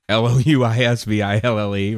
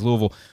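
First: The name is pronounced the outsider way. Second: The name is pronounced the local way. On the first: "Near the Louisville exit" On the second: "Which we say is Louisville"

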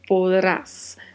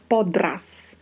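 First: The d is pronounced softly and lightly. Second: The d is pronounced strongly and distinctly. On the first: The speaker calls it right. "A gente pronuncia essa letra D com um pouco mais de suavidade" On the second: The speaker calls it wrong. "nós não vamos falar podrás"

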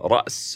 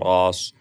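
First: It is said with a glottal stop, standard Arabic. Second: It is said without a glottal stop, Quraysh dialect.

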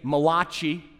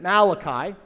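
First: It is said in a New Jersey Italian accent. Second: It is said in a neutral accent.

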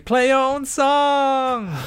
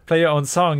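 First: The phrase is said in an odd imitated way. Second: The phrase is said in a normal natural way. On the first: The speaker calls it wrong. "super weirdly pronounced by the chicken" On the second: The speaker calls it right. "if you would say play your own song"

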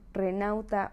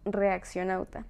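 First: The name is shortened to three syllables, re-nau-ta. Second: The name is said in full, re-ac-cio-nau-ta. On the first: The speaker calls it wrong. "me dicen renauta" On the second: The speaker calls it right. "es reaccionauta"

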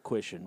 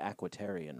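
First: The name has no 'tar' syllable. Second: The name has an extra 'tar' syllable. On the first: This is the name the characters use for themselves. The speaker calls it right. "they call themselves the Aquitian Rangers" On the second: This is the speaker's own habitual version of the name. The speaker calls it wrong. "I always called them the Aquitarian Rangers"

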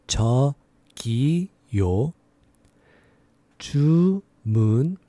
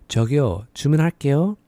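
First: It is said slowly. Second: It is said fast.

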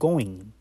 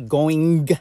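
First: The final G sound is almost silent. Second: The final G sound is clearly pronounced. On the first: The speaker calls it right. "that G is almost silent. So it's like you're saying going" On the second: The speaker calls it wrong. "But do you pronounce that G at the end? ... Do you say going? G? No"

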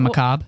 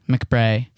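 First: The word ends with a 'bruh' sound. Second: The word ends with an 'ay' sound. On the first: The speaker calls it right. "Instead of macabre" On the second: The speaker calls it wrong. "I call it McBray"

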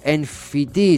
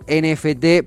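First: The letters are named the English way. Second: The letters are named the Spanish way. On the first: "sería en inglés" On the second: "Yo le voy a decir NFT"

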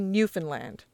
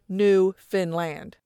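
First: The stress falls on the first syllable. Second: The stress falls on the last syllable. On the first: This is the older, pre-1970 way of saying it. "that Joey-approved new" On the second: This is the common way of saying it today. "this is the most common pronunciation now"

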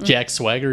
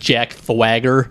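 First: The s is said as a clear s sound. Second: The s is lisped like a th sound. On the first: It is the name said normally. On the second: It imitates how the wrestler himself talked.

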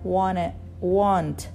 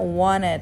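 First: The word ends without an -ed ending. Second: The word ends with an audible -ed ending. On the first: The speaker calls it wrong. "Amalia bilang Abraha want" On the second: The speaker calls it right. "Harusnya wanted ya"

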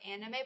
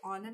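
First: It is said with an English-style pronunciation. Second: It is said with a Japanese-style pronunciation. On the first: The speaker calls it wrong. "people say anime like anime" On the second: The speaker calls it right. "but it's actually anime"

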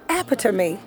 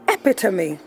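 The two takes are said the same way.

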